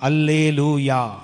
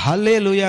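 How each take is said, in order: First: It starts with a vowel, spoken from the mouth. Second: It starts with an h breathed from the belly. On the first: This is the Greek form of the word. "வாயிலிருந்து ஆரம்பிக்கும்" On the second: This is the Hebrew form of the word. "ஹா எங்கேருந்து வரணும்? அடி வயிற்றுலேருந்து வரணும்"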